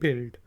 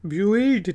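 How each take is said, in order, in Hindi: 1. b के बाद कोई 'yoo' की आवाज़ नहीं आती। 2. b के बाद 'yoo' की आवाज़ आती है। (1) "यू साइलेंट है" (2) "ब्यूल्ड नहीं कहेंगे"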